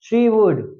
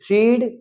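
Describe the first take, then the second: First: It is said as two full words. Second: It is said as one contracted syllable.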